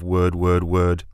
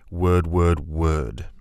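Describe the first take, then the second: First: The pitch stays level like a plain statement. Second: The pitch drops at the end like a command.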